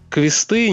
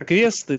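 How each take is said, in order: First: The stress is on the last syllable. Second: The stress is on the first syllable. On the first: It stresses that there are many of them. "переезд этот ударение на последний слог" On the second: It is just the plain plural. "там произносится шва, по-моему, на конце практически"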